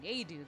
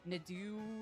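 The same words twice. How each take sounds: First: It is pronounced the French Canadian way. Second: It is pronounced the traditional French way. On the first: "The French Canadian way is apparently Nadeau" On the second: "if you were pronouncing it in the traditional French way"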